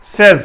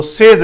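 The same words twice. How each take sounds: First: सेज rhyming with "fez"; correct pronunciation. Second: सेज misread to rhyme with "days"; wrong pronunciation. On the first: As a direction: say सेज with short "e", as "sez". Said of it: "है बल्कि सेज". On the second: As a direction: say सेज with long "ay", like "saze". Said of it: "वो सेज नहीं". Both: Shown as a demonstration.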